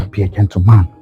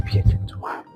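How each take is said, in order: First: Gentleman said firmly; stress on gentleman. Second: Be a gentleman half whispered; soft whispered take. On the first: Coaching himself, gentleman stressed. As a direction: push the word gentleman. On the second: Rehearsing alone, a soft whisper. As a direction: mutter Be a gentleman to yourself. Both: Shown as a demonstration. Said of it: "Like this".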